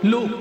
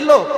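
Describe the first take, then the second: First: The vowel is said as a u. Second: The vowel is said as a round o. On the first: "মুখে বলার সময় লুক উচ্চারণ করছে" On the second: "বইতে পড়ার সময় পড়ছে লোক"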